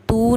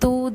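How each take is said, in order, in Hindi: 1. स्वर खींचकर लंबा बोला जाता है। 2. स्वर छोटा है।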